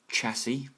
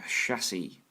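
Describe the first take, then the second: First: The word begins with a hard ch sound. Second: The word begins with a soft sh sound.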